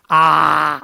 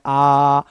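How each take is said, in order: First: आ said with the mouth barely open; a cramped, half-open आ; wrong aa. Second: Said in the usual way. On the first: Shown as a demonstration. Teacher showing students the wrong aa, half-open. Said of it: "ऐसे नहीं इसको बोलना है". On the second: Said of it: "इसको normal बोलना है".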